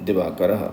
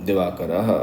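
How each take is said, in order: Both takes have the same delivery.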